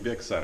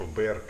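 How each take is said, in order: First: The word is said with an x sound. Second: The word is said without an x sound. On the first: "они произносят не Bexar" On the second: "они как типа Bear County. Там X не читается"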